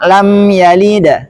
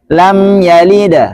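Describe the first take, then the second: Both takes have the same delivery.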